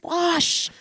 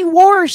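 First: The word has no r sound before sh. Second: The word has an r sound before sh. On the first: The speaker calls it right. "it's wash" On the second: The speaker calls it wrong. "don't say warsh"

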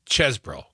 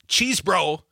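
First: The first vowel is short, as in dessert. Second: The first vowel is long, as in cheese. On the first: The speaker calls it right. "the E's is like dessert" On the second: The speaker calls it wrong. "It's not cheese bro"

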